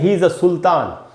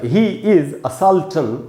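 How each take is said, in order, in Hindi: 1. सुल्तान का उच्चारण हिंदी-अरबी तरीके से है। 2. सुल्तान का उच्चारण अंग्रेज़ी तरीके से है। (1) "न कि ही इज अ सुल्तान" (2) "तो आप बोलेंगे ही इज अ साल्चन"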